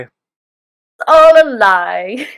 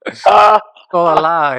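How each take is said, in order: First: Slow, louder, stretched out in mock drama; mock dramatic echo. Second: Slow, louder, hammed-up doom; mock dramatic confession. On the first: Host echoing the co-host's line in slow mock drama. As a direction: echo it grandly and slowly. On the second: Co-host declaring the voices a lie, in slow mock drama. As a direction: drag it out like a grand confession.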